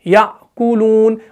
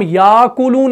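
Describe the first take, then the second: First: Slow याकुलून with the hamza caught in the throat; correct slow reading. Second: याकुलून read with a long aa, the wrong way; याकुलून with the alif sounded. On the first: Teacher models the correct याकुलून slowly. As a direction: stretch out याकुलून with a clear hamza stop. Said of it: "हम पढ़ते हैं याकुलून". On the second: Teacher shows how याकुलून is not read. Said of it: "हम याकुलून नहीं पढ़ते हैं". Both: Shown as a demonstration.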